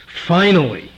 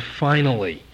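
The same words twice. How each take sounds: First: "Finally" said with firm emphasis; stress on finally. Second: Said in the usual way. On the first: Shown as a demonstration. Preacher making good on emphasizing "Finally", firm stress. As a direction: lean into "Finally" as the key word. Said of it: "and I do". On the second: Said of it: "I want to emphasize the word".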